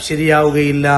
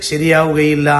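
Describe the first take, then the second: The two takes are said the same way.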